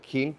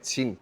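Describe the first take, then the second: First: It sounds like the English word king. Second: It is said with the Mandarin Chinese sounds. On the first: The speaker calls it wrong. "no digo King con Q" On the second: The speaker calls it right. "como se pronuncia en chino"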